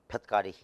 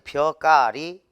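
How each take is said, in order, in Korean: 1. k 앞에서 t 같은 파열음이 음절을 닫아요. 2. 모음이 바로 된소리 k로 이어져요.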